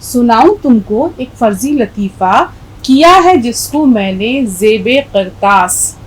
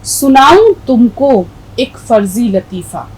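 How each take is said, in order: First: Measured, slow verse reading; poem recitation. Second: Slow recited verse line; poem recitation. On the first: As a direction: recite the couplet deliberately. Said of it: "اکبر اپنی بات کس طرح سے ہم تک پہنچاتے ہیں". (شعر کی ٹھہری ہوئی قرات) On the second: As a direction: recite it slowly like poetry. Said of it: "پھر سے پڑھ دیتی ہوں". (نظم کی آہستہ قرات) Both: Shown as a demonstration.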